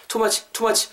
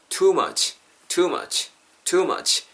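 First: TOO MUCH clipped short and higher. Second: TOO MUCH with a drawn-out too; long vowel. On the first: (too much를 너무 짧게) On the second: (too much를 길게 늘여서) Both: Shown as a demonstration. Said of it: "너무 이렇게 짧게 하지 마시고".

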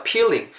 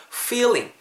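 First: Wrong "peeling" with a popped P; higher-pitched mistaken "peeling". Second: "feeling" with teeth-on-lip F; high-pitched model "feeling", true F; clear F sound. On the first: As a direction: swap the F for P: "peeling". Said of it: "peeling 하면 안 돼요". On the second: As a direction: scrape out the F in "feeling". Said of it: "F 사운드 살리셔야 돼요". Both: Shown as a demonstration.

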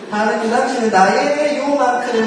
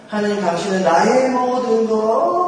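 First: Mock confession. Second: Sung, fervent hymn. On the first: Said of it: "그래서 하나님 일부분". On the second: Retold or imitated. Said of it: "막 울고 막 그러는데".

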